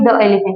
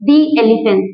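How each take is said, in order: First: 'The' is said with a short uh vowel. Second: 'The' is said with a long ee vowel. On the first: The speaker calls it wrong. "ना कि द elephant" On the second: The speaker calls it right.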